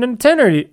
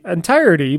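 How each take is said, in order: First: Entirety slurred as "en-tair-ee"; a stumbled entirety; mispronounced. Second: Entirety said clearly as "en-tire-ity"; a careful self-corrected entirety. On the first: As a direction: garble entirety, dropping the T. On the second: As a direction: say entirety cleanly with the T. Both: Real, not acted.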